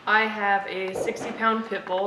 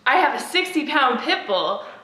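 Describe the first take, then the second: First: It is said in a flat, plain tone. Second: It is said with lively, eager enthusiasm.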